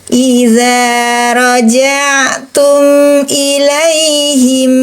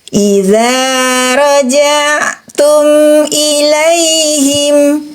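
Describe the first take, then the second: No difference in how they are said.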